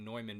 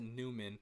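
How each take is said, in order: First: The name is said with a German 'oy' sound. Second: The name is said like English 'Newman'. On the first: The speaker calls it right. "I believe it's pronounced I think Neumann because it's German" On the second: The speaker calls it wrong. "I would pronounce it Newman"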